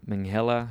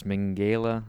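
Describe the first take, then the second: First: Minghella with an h, "ming-HEL-la"; second pronunciation attempt. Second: Minghella with a hard g, "ming-GAY-la"; hesitant pronunciation attempt. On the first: Podcaster retrying a director's surname, Minghella said "ming-HEL-la". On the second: Podcaster trying a director's surname, Minghella said "ming-GAY-la". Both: Shown as a demonstration. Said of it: "I'm gonna mispronounce this".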